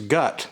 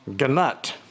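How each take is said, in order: First: The word starts with a g sound, no n. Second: Both g and n are sounded, with a vowel between. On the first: "the N is silent" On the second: "if you pronounce it the way it's spelled"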